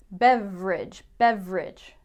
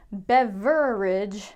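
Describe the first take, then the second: First: Beverage said as BEV-rij, middle vowel cut; two-syllable beverage. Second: Beverage said very slowly as BEV-er-ij, the middle vowel kept; three-syllable beverage. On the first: Teacher demoing the common BEV-rij. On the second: Teacher showing the beverage to avoid, slowly. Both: Shown as a demonstration. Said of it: "Not beverage".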